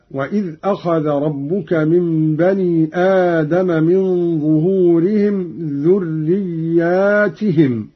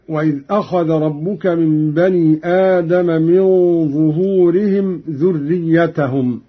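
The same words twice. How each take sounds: First: "ذرياتهم" as dhurriyyātihim, long alif after the ya; Qalun's plural reading. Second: Said in the usual way. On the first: Shown as a demonstration. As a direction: draw out the aa in "ذرياتهم", then tihim. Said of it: "هكذا". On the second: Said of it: "قرأ قالون بألف بعد الياء".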